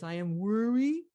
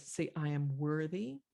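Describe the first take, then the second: First: High, loud toddler attempt at "worry"; little kid mispronouncing. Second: Lightly voiced mother with a rising end; mother coaching child. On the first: Little girl attempting her mother's word, babyish. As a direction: mimic a child who can't manage the word. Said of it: "the little kid can't even say the word worthy". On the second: Mother to little girl, lightly voiced coaching. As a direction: prompt a child to repeat it. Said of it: "the mother says".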